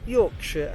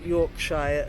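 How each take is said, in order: First: The ending has a weak, reduced vowel. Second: The ending has a full vowel, like 'fire'. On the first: The speaker calls it right. "is Yorkshire" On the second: The speaker calls it wrong. "and not Yorkshire, as many people say"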